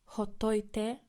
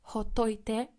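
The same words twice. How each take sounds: The two takes are said the same way.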